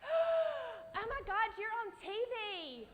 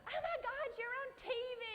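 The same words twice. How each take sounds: First: Very high, loud starstruck squeal. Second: Very high squeal with a laugh; starstruck squeal. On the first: Seeing Tim Gunn at the audition, very high starstruck squeal. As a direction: gush like a fan meeting a star. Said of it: "is the first thing I said". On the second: Retelling meeting Tim Gunn, high laughing squeal. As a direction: gush like a starstruck fan. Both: Retold or imitated.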